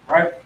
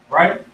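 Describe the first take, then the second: Both takes have the same delivery.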